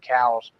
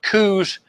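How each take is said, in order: First: The vowel sounds like the 'ow' in 'cow'. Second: The vowel sounds like the 'oo' in 'moose'. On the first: This is how the namesake said his own name. The speaker calls it right. "he pronounced his name Cowles" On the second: This is a common pronunciation others use. The speaker calls it wrong. "I hear people pronounce it coos"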